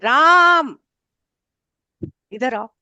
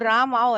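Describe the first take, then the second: First: Ram is drawn out in a long call. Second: Ram is said short, in a plain voice.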